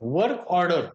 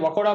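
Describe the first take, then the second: First: Both words are said clearly in full. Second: The words are clipped into one short word.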